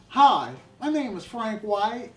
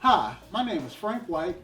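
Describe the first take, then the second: First: It is said in a Southern American accent. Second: It is said in his usual, less regional accent.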